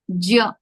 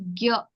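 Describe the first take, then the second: First: It starts with a nasal j sound. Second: It starts with a hard g sound. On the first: The speaker calls it right. "ja is the pronunciation, nasal" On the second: The speaker calls it wrong. "Hindi, Marathi, all of them use it as gya"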